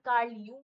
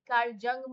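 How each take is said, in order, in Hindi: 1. Surname Y ध्वनि से शुरू होता है। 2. सरनेम J ध्वनि से शुरू होता है। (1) "इनका नाम कार्ल यूंग है" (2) "मत बोलना"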